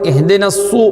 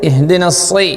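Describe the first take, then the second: First: It ends with a rounded 'su' sound. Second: It ends with a plain unrounded 's' sound. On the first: The speaker calls it wrong. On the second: The speaker calls it right.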